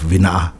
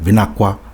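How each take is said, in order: First: The k sound in the middle is left out. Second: The k sound is followed by a w sound. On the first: Some villages' dialects say it this way. "some will take out take out the K" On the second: Some other villages' dialects say it this way. "or even a W like Vinakwa"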